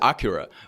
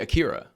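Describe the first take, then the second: First: The name is pronounced the Japanese way. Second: The name is pronounced the American English way. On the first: "I know it is Akira" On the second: "they say Akira because they're American"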